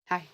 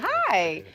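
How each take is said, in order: First: A flat, cold, unfriendly greeting. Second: A cheerful, high-pitched, pleasant greeting.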